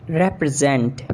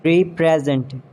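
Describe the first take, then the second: First: "represent" as rep-ri-ZENT; short E opening "represent"; British pronunciation. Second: "Represent" as REE-prez-ent; long E opening "Represent"; mispronounced represent. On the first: Shown as a demonstration. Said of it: "exact pronunciation according to the British". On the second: Acted. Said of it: "you have to correct me".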